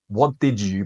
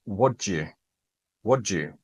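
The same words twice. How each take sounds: First: "what did you" with did said clearly; each word of "what did you" separate; did fully sounded; full careful form. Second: "what you" with did dropped; casual clipped "what you"; reduced form. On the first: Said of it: "what you hear is that". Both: Shown as a demonstration.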